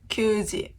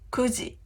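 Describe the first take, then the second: First: The first syllable is a long kyuu. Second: The first syllable is a short ku. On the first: The speaker calls it wrong. "It's not きゅうじ" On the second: The speaker calls it right. "nine o'clock is くじ"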